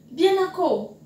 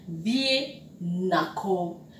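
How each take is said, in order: First: Said in the usual way. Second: Spelled out slowly, "Vie na ko" with each syllable drawn out; slow, careful teacher model of "Vie na ko". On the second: Shown as a demonstration. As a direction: say it slowly for learners to copy. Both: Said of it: "teacher models the phrase".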